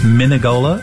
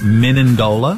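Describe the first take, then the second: First: There is no n sound before the g. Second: There is an extra n sound before the d. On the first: The speaker calls it right. "It's Menegola" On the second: The speaker calls it wrong. "not Menendola. so drop the N"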